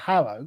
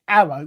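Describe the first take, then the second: First: It has a pronounced h, standard style. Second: It has a dropped h, Cockney style.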